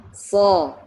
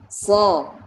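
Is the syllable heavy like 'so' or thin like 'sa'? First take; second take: heavy; heavy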